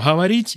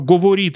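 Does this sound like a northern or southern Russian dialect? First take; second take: southern; northern. First: It is said in a southern Russian dialect. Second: It is said in a northern Russian dialect. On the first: "это юг" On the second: "это север"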